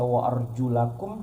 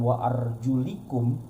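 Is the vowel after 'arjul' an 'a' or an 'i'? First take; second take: a; i. First: The syllable after 'arjul' is 'la'. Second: The syllable after 'arjul' is 'li'. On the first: One reading gives one meaning and legal ruling. "la dengan li itu maknanya beda" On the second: The other reading gives a different meaning and ruling. "la dengan li itu maknanya beda"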